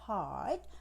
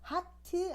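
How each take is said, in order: First: It is said as a single syllable. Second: It is said with extra vowel syllables. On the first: The speaker calls it right. "하나로" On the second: The speaker calls it wrong. "아니고"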